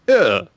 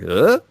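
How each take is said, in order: First: The pitch falls. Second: The pitch rises. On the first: "the one where your voice goes down like" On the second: "the one where your voice goes up like"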